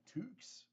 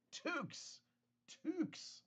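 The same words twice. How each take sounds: First: Said in the usual way. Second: "Toques" repeated high and drawn out. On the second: Shown as a demonstration. Teaching the chat the word for beanies, "Toques" said high. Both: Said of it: "they're called toques".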